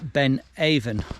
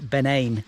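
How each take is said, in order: First: The name is given an English pronunciation. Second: The name is given a Gaelic pronunciation.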